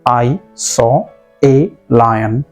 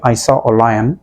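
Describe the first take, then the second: First: The word 'a' is a full stressed 'ay'. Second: The word 'a' is a short weak 'uh'. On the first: The article is given special emphasis. "Words पर बहुत ज़्यादा stress देने की ज़रूरत आई तब आप इसे कहेंगे" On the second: This is ordinary everyday speech. "हम लोग एक सरासरी बात करते हैं तो वैसे में आप कहेंगे"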